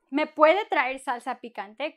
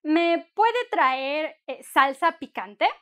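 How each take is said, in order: First: Said in the usual way. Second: Slow, careful polite request; slow model request. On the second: Shown as a demonstration. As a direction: spell out each word slowly for learners. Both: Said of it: "It's a nice way to say".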